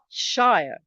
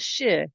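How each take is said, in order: First: The vowel is full, rhyming with fire. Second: The vowel is short and reduced. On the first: The speaker calls it wrong. "not shire. The shire belongs in The Hobbit" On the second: The speaker calls it right. "are pro- pronounced as shire"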